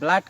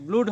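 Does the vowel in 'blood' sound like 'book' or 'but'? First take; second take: like but; like book. First: The vowel sounds like the one in but. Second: The vowel sounds like the one in book. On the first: This is how the word is actually said. "B L double O D ব্লাড কেনেকা হ'ল?" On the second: This is how the spelling would suggest it is said. "B double অ কে বুক হ'লে B L double অ D ব্লুড হ'ব লাগিছিল"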